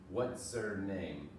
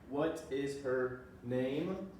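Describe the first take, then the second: First: What and is blend into one short syllable. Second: What and is are said as separate full words. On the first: "Would just be a what's her. That almost becomes like a Z" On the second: "What is her name, for example?"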